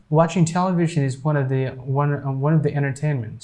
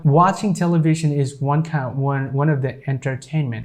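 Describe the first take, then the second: First: "entertainment" said as "ennertainment"; silent T. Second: "entertainment" with both Ts sounded; careful "en-ter-tain-ment" for "entertainment"; full T, longer. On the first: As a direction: drop the first T in "entertainment". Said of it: "we're not pronouncing this T here". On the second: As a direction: pronounce every T in "entertainment". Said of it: "It's being longer". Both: Shown as a demonstration.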